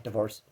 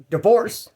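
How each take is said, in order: First: "Divorce" dropped low and very soft; low mumbled answer. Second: "Divorce" pitched up, rising at the end; raised answer. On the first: Inmate repeating his one answer, low quiet "Divorce". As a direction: say "Divorce" under your breath. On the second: Inmate answering the man who turns to him, raised "Divorce". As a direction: say "Divorce" up high, like a question. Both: Retold or imitated.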